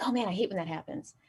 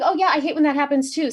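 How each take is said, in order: First: Quieter, offhand imitation of a boss. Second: Higher-pitched, acted small-talk agreement; brightly played-up agreeing; eager agreement. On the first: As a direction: mumble a casual small-talk gripe as the boss. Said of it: "and he's like". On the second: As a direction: chime in eagerly with the boss. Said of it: "I'm like".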